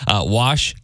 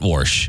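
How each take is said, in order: First: The word is said without an r sound. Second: The word is said with an r sound. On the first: The speaker calls it right. "Wash, not warsh" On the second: The speaker calls it wrong. "not warsh"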